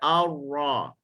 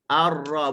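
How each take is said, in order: First: The ra is lip-rounded, sounding like waw. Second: The ra is open, without lip rounding. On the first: The speaker calls it wrong. "bukan ar-ra ... jangan mucung dah" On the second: The speaker calls it right. "Kita nak buka ar-ra"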